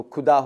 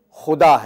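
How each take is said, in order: First: خدا said with an aspirated ک, like kuda; wrong kh sound. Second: خدا with a rasping خ from the throat; correct khuda. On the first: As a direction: say خدا with کھ instead of خ. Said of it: "اگر خدا ہے". (کھ کے ساتھ غلط خدا) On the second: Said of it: "تو خدا ہو جائے گا". (خ کے ساتھ صحیح خدا) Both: Shown as a demonstration.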